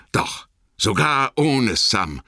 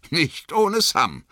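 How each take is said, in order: First: Slow, heavy "ohne" falling away; resigned. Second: "ohne" stretched and leaned on, slow; slow, firm "Nicht ohne Sam" with weight on "ohne"; stress on ohne. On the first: Sam admits Frodo left without him, resigned. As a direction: sad admission, dragging "ohne". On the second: Sam insists to himself, "ohne" stressed. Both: A narrator's reading.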